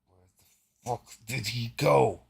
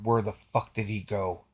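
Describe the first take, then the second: First: It is said in a mechanical robot voice. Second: It is said in an ordinary human voice.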